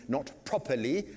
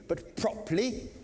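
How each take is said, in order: First: Said in the usual way. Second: "properly" lifted high with crisp, careful consonants; "properly" pronounced carefully and pitched up, as the elocution teacher taught. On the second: Shown as a demonstration. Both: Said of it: "learn how to breathe properly".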